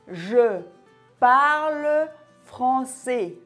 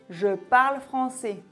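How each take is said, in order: First: It is slow, with every E sound pronounced. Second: It is faster, with one E sound dropped. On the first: "Lorsqu'on parle lentement, on prononce bien chaque son" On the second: "si j'augmente un peu le débit... j'ai effacé un E"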